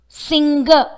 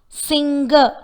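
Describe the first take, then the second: Both takes have the same delivery.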